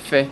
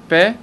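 First: It begins with a soft f sound. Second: It begins with a hard p sound. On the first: The letter has no dot inside it. "אם אין דגש אומרים פה" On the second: The letter has a dot inside it. "אם יש נקודה בפנים אומרים פה, דגש"

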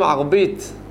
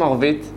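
First: The middle consonant is a b sound. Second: The middle consonant is a v sound. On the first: "אומרים ערבית" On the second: "לא אומרים ערבית"

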